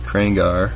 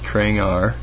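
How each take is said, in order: First: The last syllable is said with an 'ar' sound. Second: The last syllable is said with an 'ar' sound.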